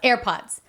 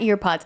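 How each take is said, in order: First: The first vowel sounds like 'air'. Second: The first vowel sounds like 'ear'. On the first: The speaker calls it right. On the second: The speaker calls it wrong. "They're not ear pods"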